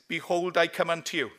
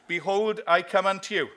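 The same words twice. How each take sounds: First: It is said at a normal volume. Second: It is said slightly louder than normal.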